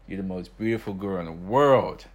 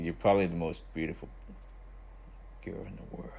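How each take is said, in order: First: It is said loudly, for all to hear. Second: It is said quietly, in a low voice.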